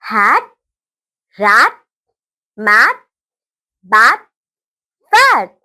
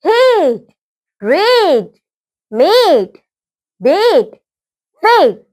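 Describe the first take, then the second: First: "हैट, रैट, मैट, बैट, फैट" with short open A, as in cat; short-vowel drill on "हैट, रैट, मैट, बैट, फैट", pausing after each; short A sounds. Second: "हेट, रेट, मेट, बेट, फेट" with a stretched ay, as in late; long-vowel drill on "हेट, रेट, मेट, बेट, फेट", each held long; long A sounds. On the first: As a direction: say "हैट, रैट, मैट, बैट, फैट" as hat, rat, mat, bat, fat. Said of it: "short sound". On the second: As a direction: say "हेट, रेट, मेट, बेट, फेट" as hate, rate, mate, bait, fate. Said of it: "long sound". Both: Shown as a demonstration.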